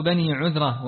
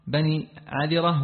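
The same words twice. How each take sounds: First: عذرة with 'u' after the ʿayn; corrected tribe name. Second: عذرة misread with 'a' after the ʿayn; mispronounced tribe name. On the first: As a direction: read عذرة as ʿudhra. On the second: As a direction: read عذرة as ʿadhra, not ʿudhra. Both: Real, not acted. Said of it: "بني عذرة".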